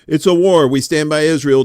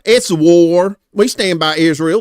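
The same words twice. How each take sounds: First: It is said in a plain reading voice. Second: It is said in a put-on character voice. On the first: The speaker calls it wrong. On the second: The speaker calls it right.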